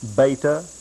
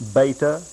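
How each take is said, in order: First: It is pronounced in an English style. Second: The same.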